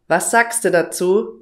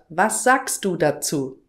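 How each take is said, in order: First: Sounds are dropped and words run together. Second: Every word is pronounced clearly and in full. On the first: "was sagst du dazu statt was sagst du dazu" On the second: "statt was sagst du dazu"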